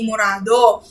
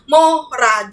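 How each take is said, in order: First: The first vowel is a u sound. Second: The first vowel is an o sound. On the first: The speaker calls it wrong. "hindi murado" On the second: The speaker calls it right. "morado yon"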